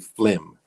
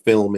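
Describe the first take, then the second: First: The l sound comes before the vowel. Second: The l sound follows the vowel. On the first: "in Jamaica, we say" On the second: "Instead of film"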